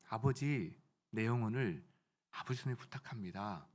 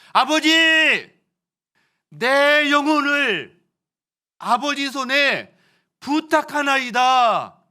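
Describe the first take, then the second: First: The sentence is said at a normal, quiet volume. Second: The sentence is said as loudly as possible. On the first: The speaker calls it wrong. "저처럼 말하지 않으셨어요" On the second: The speaker calls it right. "자신이 할 수 있는 가장 큰 소리로 하셨어요"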